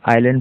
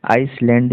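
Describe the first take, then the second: First: "आइलैंड" said "eye-land", no s; smooth glide from "eye" into "land" in "आइलैंड"; silent s in "island". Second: "आइसलैंड" with the s sounded, like "ice-land"; audible hissed s inside "आइसलैंड"; mispronunciation of "island". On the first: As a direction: say "आइलैंड" with the s left out. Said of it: "एस silent है यहाँ पर". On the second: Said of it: "ये नहीं होगा". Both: Shown as a demonstration.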